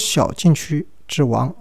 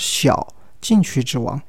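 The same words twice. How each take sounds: First: The break comes after the third syllable. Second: The break comes after the first syllable. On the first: A king of the small penalty box. The speaker calls it wrong. "不是小禁区之王" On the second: A lesser successor to the King of the Penalty Area. The speaker calls it right. "而是小禁区之王，因为以前是有个禁区之王的"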